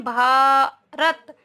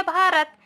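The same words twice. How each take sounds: First: भारत drawn out slowly, a long भा, then रत; slow teacher's sounding-out of भारत; sounded out. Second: Said in the usual way. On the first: Shown as a demonstration. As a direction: stretch भारत slowly to show each sound. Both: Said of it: "लेकिन हम बोलते कैसे हैं".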